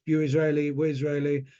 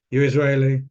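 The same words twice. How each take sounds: First: Said in the usual way. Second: "You're Israeli" said louder, firm and warm; emphatic reassurance. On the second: Retold or imitated. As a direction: land "You're Israeli" loud and sure.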